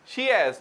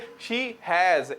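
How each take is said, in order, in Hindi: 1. दोनों शब्द मिलकर एक अक्षर में बोले जाते हैं। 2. यह दो अलग-अलग पूरे शब्दों की तरह बोला जाता है। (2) "ना के शी हैज"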